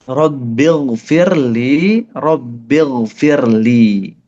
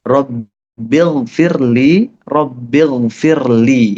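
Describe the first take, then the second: Both takes have the same delivery.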